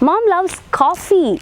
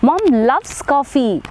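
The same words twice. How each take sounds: First: The stress is on coffee. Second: The stress is on loves.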